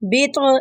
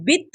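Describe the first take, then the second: First: The final consonant is released with a bounce. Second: The final consonant is held back without release. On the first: The speaker calls it right. "बित बित ऐसे पढ़ेंगे" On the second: The speaker calls it wrong. "इसको हुह बित नहीं पढ़ेंगे, यानी आवाज को दबाएंगे नहीं"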